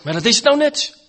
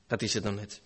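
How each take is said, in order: First: Loud and high, hammer the point home; emphatic outburst. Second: Much softer and lower, almost to himself; quiet echo. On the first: Preacher to his congregation, driving the point home loudly. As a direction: proclaim it as the crux of the problem. Preacher stressing the sinner's objection. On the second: Preacher echoing the doubter's despair to himself, softly. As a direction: let it sink back in resignation. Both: Acted.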